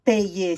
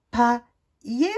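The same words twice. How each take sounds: First: PAYER said pè-yé. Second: PAILLER said pa-yé; plain A sound. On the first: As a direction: say PAYER with è before yé. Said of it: "je veux marquer Y". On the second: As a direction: say PAILLER with an open A before yé. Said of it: "c'est une voyelle". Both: Shown as a demonstration.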